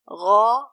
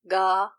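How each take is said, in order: First: It starts with a soft, throaty gh sound. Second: It starts with a hard g sound. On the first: The speaker calls it right. "Gha and not ga" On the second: The speaker calls it wrong. "not ga"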